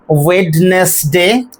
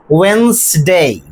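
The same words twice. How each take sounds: First: Wednesday with the D sounded, wed-nes-day; Wednesday said slowly in three syllables, D pronounced; wrong Wednesday. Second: Wednesday as wens-day, D dropped; Wednesday said in two syllables, wenz-day; correct Wednesday. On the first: Teacher showing the wrong Wednesday with D sounded. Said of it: "which is incorrect". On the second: Teacher giving the right Wednesday, two syllables. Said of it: "correct pronunciation". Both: Shown as a demonstration.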